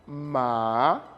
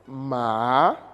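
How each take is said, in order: The two takes are said the same way.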